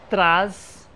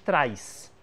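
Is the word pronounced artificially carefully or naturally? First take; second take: artificially; naturally. First: The final sound is over-articulated to show the letter. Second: The final sound is said in everyday relaxed fashion. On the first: It shows that the word is spelled with a different letter. "eu artificializei um pouquinho a pronúncia do traz" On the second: It shows that the word rhymes with atrás and mais. "na prática, vejamos, a gente diz traz"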